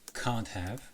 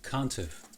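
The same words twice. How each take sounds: First: Have is said in full with a clear h. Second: Have is reduced, sounding like can't've. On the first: This is the written form. "I wrote" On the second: This is the spoken double contraction. "but I said"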